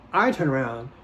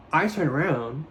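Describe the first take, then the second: No difference in how they are said.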